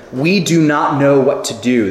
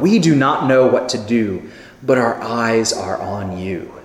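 First: Said in the usual way. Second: Softer, lower and slow, like a hushed prayer; quiet reverent prayer. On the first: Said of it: "This is part of his prayer to God". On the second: Shown as a demonstration. Preacher voicing the king's prayer, hushed and reverent. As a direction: pray it gently, eyes on God. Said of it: "what a beautiful statement of faith".

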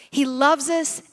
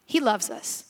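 First: Said in the usual way. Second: Softer, gentle first take; tender. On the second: Shown as a demonstration. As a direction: say it softly, like a secret of love.

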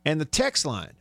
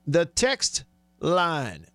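First: Said in the usual way. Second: TEXT and LINE drawn out and set apart; very slow, deliberate announcement; slow repeat. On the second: Real, not acted. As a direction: stretch each word so listeners catch it. Repeats it slowly for listeners.

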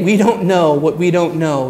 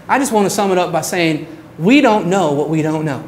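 First: Said in the usual way. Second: Put-on fast, light Southern accent for the professor's closing line. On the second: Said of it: "t-, a Southern accent".

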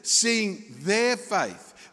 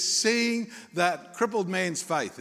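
First: Slow, drawn-out "their", higher in pitch; emphatic, deliberate weight on "their"; stress on THEIR. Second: Said in the usual way. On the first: Shown as a demonstration. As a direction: correct the reading by leaning on "their". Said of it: "Whose faith is it?". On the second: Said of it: "Is that what it says?".

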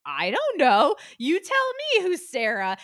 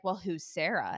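First: Loud, high, slow snap back at the agent; indignant retort. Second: Said in the usual way. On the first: Retold or imitated. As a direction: throw his question right back at him, louder. Retelling her snapping back at agent.

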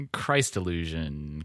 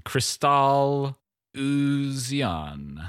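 First: Said in the usual way. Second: Crystal Illusion drawn out slowly; slow corrected title. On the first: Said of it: "corrected to Crystal Illusion". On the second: Shown as a demonstration. Fixing the album name, said slowly and deliberately. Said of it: "correcting Christ Illusion".

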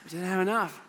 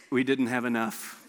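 First: Soft repeat through a chuckle; amused repeat. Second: Low, soft, defeated admission; deflated. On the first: Real, not acted. Pastor repeating the punchline to the crowd, chuckling. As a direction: echo it with a laugh. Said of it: "repeated with a laugh". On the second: Retold or imitated. Student pastor admitting the food ran out, low and deflated. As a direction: let it drop low and soft.

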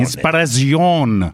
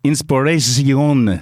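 First: "inspiration" slowly said as in-spa-ra-zion; slow Italianised "inspiration" with an open A and stressed ending; copied Italian pronunciation. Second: "inspiration" drawn out slowly as in-spo-re-si-on; slow, groping Italianised "inspiration"; Italian-style attempt. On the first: Acted. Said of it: "Like that". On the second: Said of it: "try and do an Italian accent".

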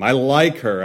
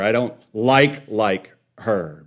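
First: Said in the usual way. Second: Doubled "like" with the weight on the first; stress on first LIKE. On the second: Retold or imitated. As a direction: hit the first "like", then drop down on "like her". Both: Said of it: "like and like, like are different".

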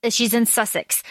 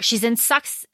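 First: "Sussex" said carefully as SUSS-iks; corrected pronunciation. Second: "Sux-" cut off, said like sucks; stumbled pronunciation. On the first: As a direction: fix it: "Sussex", two clear syllables. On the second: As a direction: trip over "Sux-" and stop. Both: Shown as a demonstration. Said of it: "I cannot say that word".

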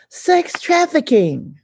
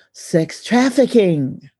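First: "Sex" jumps high, "trafficking" falls away; stress on SEX. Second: Said in the usual way. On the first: Real, not acted. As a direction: hit "Sex" hard and high, then drop. Repeated phrase, stress moves to sex.

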